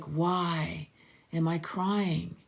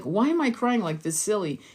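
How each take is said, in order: First: Slow, softened, wondering question; hushed, unhurried curiosity about the tears; gentle self-inquiry. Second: Slightly raised, dismissive self-scolding; quicker, impatient self-questioning; mock self-dismissal. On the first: Acted. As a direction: ask yourself tenderly, drawing it out. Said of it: "It's like". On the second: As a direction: act out brushing off your own tears. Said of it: "it's not like".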